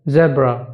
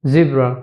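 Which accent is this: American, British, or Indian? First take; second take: British; American. First: It is said in a British accent. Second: It is said in an American accent. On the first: "In British accent" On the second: "In American accent"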